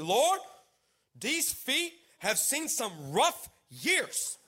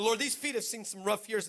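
First: Slow, drawn-out prayer with rising words; halting awkward prayer. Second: Said in the usual way. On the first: Retold or imitated. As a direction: pray haltingly, stretching out each word. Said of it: "This is how I started my prayer". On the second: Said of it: "That's how I started this".

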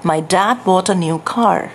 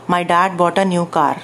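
First: Slow British English car, aspirated kh on car; British accent. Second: Plain Indian English car with a rolled r; Indian English accent. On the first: Trainer shows students the British accent version, slowly. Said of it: "Britain accent से बोलते हैं". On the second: Teacher demonstrates a student's Indian English accent. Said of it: "वो ऐसे बोलता है". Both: Shown as a demonstration.

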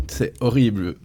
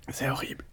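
First: Said in the usual way. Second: Breathy whisper, barely voiced. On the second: Real, not acted. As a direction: whisper it through the burn. Mouth burning from spicy chip.

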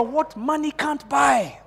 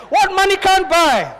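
First: High, drawn-out call at normal volume; preacher's call line. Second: Very high, loud, drawn-out preacher's cry. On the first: Preacher leading congregation in a phrase, high slow call. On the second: Preacher showing congregation how to say it, loud high preaching. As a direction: belt it out slowly to the congregation. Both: Shown as a demonstration. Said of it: "say it like a preacher".

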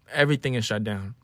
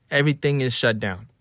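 The two takes are said the same way.

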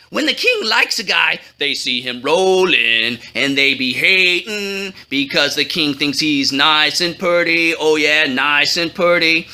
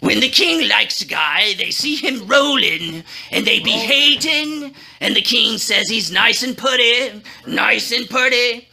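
First: Excited. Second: Grudging, forced through clenched teeth; gritted teeth. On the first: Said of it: "said excitedly". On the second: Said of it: "through gritted teeth". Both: Acted.

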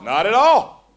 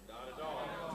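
First: "Not at all" called out loud with a rise; loud, emphatic reply after the whisper; loud answer. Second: Breathy whisper of "Not at all". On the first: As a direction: belt "Not at all" back out. Same words answered aloud. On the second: Answering own question, first take hushed. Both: Shown as a demonstration.

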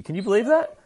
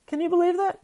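First: High, loud rising disbelief; stunned disbelief. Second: Very high squeal of disbelief; shrieking disbelief. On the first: Streamer reacting to a twist, high incredulous voice. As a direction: sell the shock at the twist. Mock outrage at plot twist. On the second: Streamer repeating his shock, much higher squeal. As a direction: push it up into a squeal. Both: Real, not acted.

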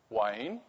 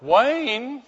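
First: Quiet, questioning call with rising end; wary calling out. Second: High, rising questioning call; alarmed calling out. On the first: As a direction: softly test if someone is there. Wife calls out in the dark. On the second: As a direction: imitate an uneasy wife calling into the dark. Wife calls again, now more alarmed. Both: Acted.

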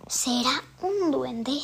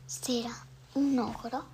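First: Said in the usual way. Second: Whisper. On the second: Shown as a demonstration. Whispered guess about the ogre.

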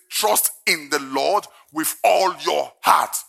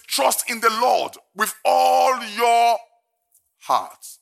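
First: Measured, slow reading; solemn verse reading; slow scripture read. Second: Slow, high shout on ALL; emphatic slow proclamation; shouted scripture. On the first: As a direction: state the verse calmly. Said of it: "first reading of verse". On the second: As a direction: preach it full force. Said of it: "repeating verse with emphasis". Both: Acted.

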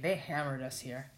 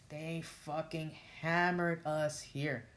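First: Said in the usual way. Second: Slow, weighty stress on "fucking hammered"; slow emphatic repeat. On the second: Real, not acted. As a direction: draw out "They fucking hammered us here" word by word. Repeats the phrase slowly for emphasis.

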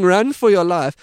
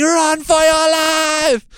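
First: Somewhat louder half-hearted yell; a mild mock shout of "Run for your life."; mild mock scream. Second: High, loud, slow hammed-up scream of "Run for your life!". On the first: Beekeepers shouting while driving past, mild mock yell. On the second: Hazmat-looking crew screaming past the scared couple, high loud mock scream. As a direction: stretch out a mock panicked yell.

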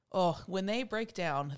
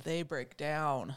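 First: Said in the usual way. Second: "they break down" dropped low and slowed right down; slow emphatic repeat. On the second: Shown as a demonstration. Teacher stressing how hard her students cry.

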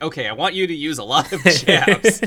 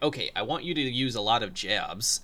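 First: Louder coach voice. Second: Said in the usual way. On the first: Retold or imitated. Assistant coach barking instructions from the corner. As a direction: coach calling it out, louder and higher. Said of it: "the assistant coach saying". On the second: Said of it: "the audio was almost the same".

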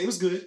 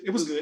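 First: Grudging, lukewarm; half-hearted praise. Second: Said in the usual way. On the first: Real, not acted. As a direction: shrug it off. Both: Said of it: "that's what I said".

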